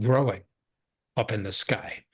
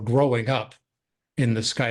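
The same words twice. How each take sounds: First: There is a short pause after 'growing'. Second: There is no pause after 'growing'.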